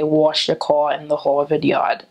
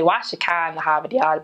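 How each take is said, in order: First: A New York accent with rounded 'aw' vowels. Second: A Boston accent with broad 'ah' vowels. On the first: "New Yorkers say aw" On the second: "Boston people say ah"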